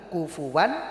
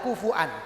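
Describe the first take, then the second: First: The middle vowels are joined by a w sound. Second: The middle vowels are split by a glottal stop. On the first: This follows the dialect of the Quraysh. "orang Quraisy itu apa namanya tidak suka untuk membaca hamzah" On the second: This is the original form by word structure. "secara sorof aslinya adalah kufuan"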